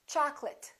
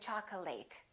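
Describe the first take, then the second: First: The final syllable is reduced and weak. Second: The final syllable is a full 'ate' sound. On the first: The speaker calls it right. "It's chocolate because it's a noun" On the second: The speaker calls it wrong. "A lot of my students say chocolate"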